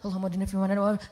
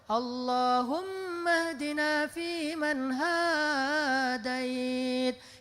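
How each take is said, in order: First: It is said in a rushed, fast way. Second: It is said at a relaxed, slow pace.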